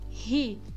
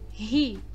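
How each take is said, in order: First: The syllable starts with a breathy h-like sound. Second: The same.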